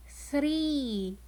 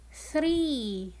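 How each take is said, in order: First: \"Three\" repeated clearly for the class; repeated model word three. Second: \"three\" spoken slowly with a long E; modelled word three. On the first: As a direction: echo \"Three\" with the long E held. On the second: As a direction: model \"three\" for children, E drawn out. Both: Shown as a demonstration. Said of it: "The word three has the long sound E".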